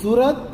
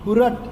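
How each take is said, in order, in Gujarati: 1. શબ્દ 's' અવાજથી શરૂ થાય છે. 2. શબ્દ 'h' અવાજથી શરૂ થાય છે.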